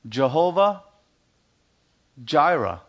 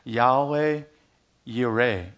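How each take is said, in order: First: It begins with an English J sound. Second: It begins with a Y sound.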